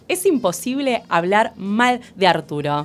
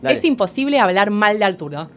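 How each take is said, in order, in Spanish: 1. La oración se dice a un ritmo más lento. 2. La oración se dice a un ritmo más rápido.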